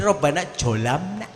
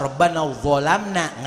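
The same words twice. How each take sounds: First: Rabbana Dzolamna with the dz turned to a j, Jolamna; mock the sloppy Jolamna; lazy j sound in Dzolamna; wrong pronunciation. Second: Rabbana Dzolamna with a clear dz sound; careful Quran reading of Rabbana Dzolamna; correct Arabic. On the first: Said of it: "Kalau nggak kenal huruf". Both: Shown as a demonstration.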